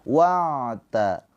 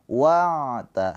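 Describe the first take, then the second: Both takes have the same delivery.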